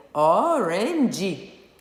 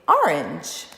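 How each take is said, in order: First: Orange read the Portuguese way in three stretched syllables, o-ren-dji; slow Portuguese-accented "orange", ending in "dji". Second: Orange said briskly and firmly as two syllables, silent final e; "orange" in English, ending on the consonant; natural two-syllable English. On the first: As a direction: say orange with a Brazilian Portuguese accent, sounding the final e. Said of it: "falando como a gente falaria em português, seria". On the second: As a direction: say orange whole, loud on the first syllable. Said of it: "Essa é duas sílabas". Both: Shown as a demonstration.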